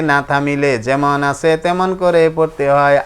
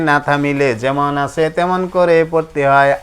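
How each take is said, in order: Both takes have the same delivery.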